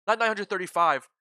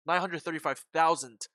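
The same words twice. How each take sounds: First: "nine hundred thirty-five" said loud, falling on "nine"; wrong figure, cut off. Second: "nine hundred thirty-five thousand" with stress on "nine", finishing with "thousand"; corrected figure. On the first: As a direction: stop short after "thirty-five". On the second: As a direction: add "thousand" firmly to correct it. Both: Real, not acted.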